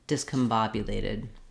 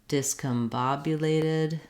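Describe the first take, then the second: First: It is said quickly and smoothly. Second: It is said at a moderate speed.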